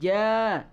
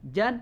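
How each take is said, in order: First: It ends with a lengthened vowel. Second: It ends with an n sound. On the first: "maka ketika waqaf maka menjadi panjang" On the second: "ketika ada fathatain afwajan"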